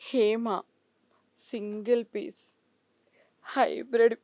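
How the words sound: It is said in a shy, bashful tone. "సిగ్గుపడుతూ"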